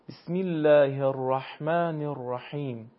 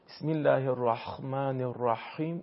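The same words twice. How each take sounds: First: The h sounds are soft and unscraped, not kh. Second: The h sounds are harsh and scraped, like kh. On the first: The speaker calls it right. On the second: The speaker calls it wrong.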